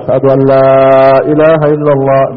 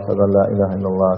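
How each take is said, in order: First: The phrase is said loudly and forcefully. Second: The phrase is said softly and gently. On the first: "আবার জোরে বলবে" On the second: "ধীরে ধীরে বলবে"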